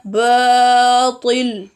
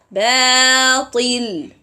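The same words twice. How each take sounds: First: "batil" with a heavy, thick ba. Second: "batil" with a thin, light ba; "batil" without lifting the tongue. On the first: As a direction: raise the back of the tongue on "batil". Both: Shown as a demonstration. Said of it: "like this".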